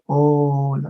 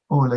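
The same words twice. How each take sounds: First: The word is drawn out slowly. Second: The word is said at a normal pace.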